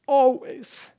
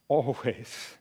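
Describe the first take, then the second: First: "Always" pitched high and stressed; emphatic repetition. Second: Low, soft delivery; quiet assurance. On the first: Preacher repeats Jesus' promise, high emphatic "Always". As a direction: lift "Always" sharply for emphasis. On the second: Jesus promises to stay with the disciples, quiet assurance. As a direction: let the word settle softly and low. Repeats closing promise, contrasting takes. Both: Retold or imitated.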